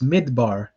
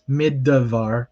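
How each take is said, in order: First: The middle consonant is a b sound. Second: The middle consonant is a v sound. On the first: The speaker calls it right. "It is midbar" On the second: The speaker calls it wrong. "a beginner might mispronounce this as midvar, but that is incorrect"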